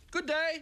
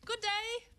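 First: High squeaky little toy greeting; high squeaky good day. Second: High mock good day; squeaky toy voice. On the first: Acted. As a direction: chirp it like a tiny toy. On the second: Echoes the squeaky greeting.

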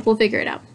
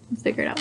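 First: Said in the usual way. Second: Breathy whisper to self; hushed self-reassurance. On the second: Shown as a demonstration. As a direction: whisper it under your breath.

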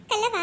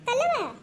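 First: Said in the usual way. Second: Higher, crying call of ಕಲ್ಲವ; sobbing call. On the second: Acted. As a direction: wail ಕಲ್ಲವ through a sob. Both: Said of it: "ಯಾ, ಅಳಗತ್ತಿಯಲ್ಲ".

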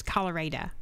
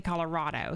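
First: "Colorado" said kah-luh-RAY-duh, with the third syllable as in "day"; Texas pronunciation. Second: Said in the usual way. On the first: Shown as a demonstration. Showing stream chat how the client says "Colorado", Texas style. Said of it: "I know how he says this". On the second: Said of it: "He doesn't say Colorado".

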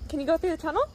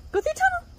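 First: Said in the usual way. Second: Much higher, bright sing-song urging; excited high pet talk. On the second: Real, not acted. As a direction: cheer the dog on through the tunnel.

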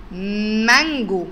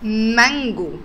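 First: Slow drawn-out word. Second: Said in the usual way. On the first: Shown as a demonstration. Teacher stretches مانجو for the children to listen. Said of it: "فكر كده كويس واسمع كويس قوي". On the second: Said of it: "نسمع كده الكلمة اللي بعدها".

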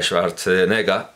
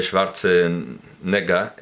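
First: Schwarzenegger said the street way, as "Sharteneguer" with the sounds run together; vulgar pronunciation. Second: Schwarzenegger said slowly, every sound spelled out, "Schbar-ze-ne-gger"; slow right down and carefully sound out each syllable of Schwarzenegger; deliberate corrected Schwarzenegger; careful pronunciation. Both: Shown as a demonstration. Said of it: "como lo pronuncia el vulgo, con una asimilación".

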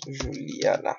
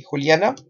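First: "Juliana" as zhoo-lee-AH-na; soft zh opening "Juliana"; Portuguese pronunciation. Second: Said in the usual way. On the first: Shown as a demonstration. Teacher gives the Portuguese name, Portuguese pronunciation. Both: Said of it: "en portugués decimos Juliana".

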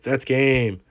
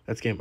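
First: Said in the usual way. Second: That's game repeated much softer, almost to himself; quiet echo. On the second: Real, not acted. Gamer repeating his win call to himself, soft murmur. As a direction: murmur That's game again under the breath.

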